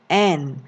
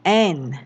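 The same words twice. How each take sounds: The two takes are said the same way.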